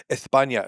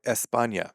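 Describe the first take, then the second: First: "España" with TH for the S; joke lisp. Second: Said in the usual way. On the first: Shown as a demonstration. Comparing which name is funnier, lisped pronunciation. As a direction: put a comic lisp on "España". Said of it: "much funnier if someone said España". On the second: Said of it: "versus Spain or España".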